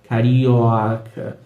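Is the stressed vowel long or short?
long. The stressed vowel is long and more open. "esse carioca pode ser mais longo e mais aberto"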